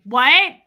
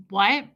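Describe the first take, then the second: First: Loud, high mock-deaf query; getting louder. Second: Said in the usual way. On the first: Coaching a worker to annoy customers, very loud feigned deafness. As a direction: belt it out as if you heard nothing. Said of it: "And then get louder". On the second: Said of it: "Act like you can't hear".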